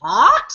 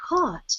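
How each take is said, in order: First: "Pot?" with a rising question tune. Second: "Pot." said flat and falling; quiet falling "Pot."; flat statement. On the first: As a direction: ask "Pot?" as a puzzled question. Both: Retold or imitated. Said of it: "repeating how they both said it".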